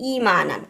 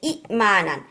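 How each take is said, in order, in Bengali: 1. হামজা ছাড়াই শব্দটি মসৃণভাবে প্রবাহিত হয়। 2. 'i'-এর পরে একটি হামজা শব্দটিকে ভেঙে দেয়। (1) "ইয়া দিয়ে রিপ্লেস করে ফেলছে" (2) "এখানে আবার হিকাপ"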